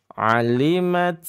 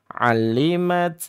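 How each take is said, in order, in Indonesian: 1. Bunyi L-nya ganda dan ditahan. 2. Bunyi L-nya ganda dan ditahan.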